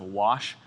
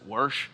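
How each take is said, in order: First: Said in the usual way. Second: "wash" said as "warsh" with an r before the sh; warsh pronunciation. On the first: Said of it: "instead of". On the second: Shown as a demonstration. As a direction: say "wash" like "warsh", Midwest r slipped in. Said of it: "anyone that says".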